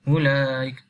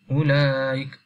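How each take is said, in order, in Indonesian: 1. Vokal sebelum hamzah dibaca sebentar. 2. Vokal sebelum hamzah dibaca sebentar.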